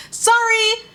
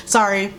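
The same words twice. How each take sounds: First: SORRY pitched very high and stretched; over-the-top, high-pitched "Sorry"; exaggerated sorry. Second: Said in the usual way. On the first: Real, not acted. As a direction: sing out "Sorry" high and long. Exaggerated repeat of the apology.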